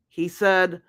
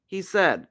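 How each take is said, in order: Both takes have the same delivery.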